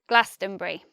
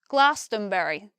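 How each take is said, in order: First: The word is said with three syllables. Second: The word is said with four syllables. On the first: "the most natural pronunciation is Glastonbury" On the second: "in a West Country accent, people might say Glastonbury, Glastonbury. They'll say it with four syllables"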